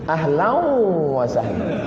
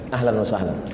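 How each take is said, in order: First: The n merges nasally into the following w. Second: The n is pronounced clearly without nasal merging. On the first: The speaker calls it wrong. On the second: The speaker calls it right.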